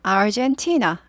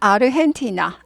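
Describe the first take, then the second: First: It is said with English pronunciation. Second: It is said with Korean pronunciation. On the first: "영어로는" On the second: "한국말로는"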